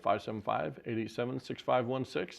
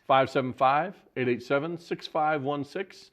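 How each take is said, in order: First: The number is said fast. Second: The number is said slowly.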